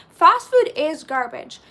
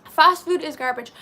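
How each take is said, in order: First: "Fast food is garbage" slow and loud; emphatic repeat. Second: Said in the usual way. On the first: Real, not acted. Streamer agreeing about junk food, "Fast food is garbage" said emphatically. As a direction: declare "Fast food is garbage" slowly, leaning on each word.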